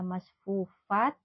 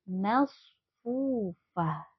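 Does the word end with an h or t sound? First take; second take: t; h. First: The word ends with a t sound. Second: The word ends with an h sound. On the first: The speaker calls it wrong. "tidak dibaca masfufat" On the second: The speaker calls it right. "ketika wakaf menjadi masfufah"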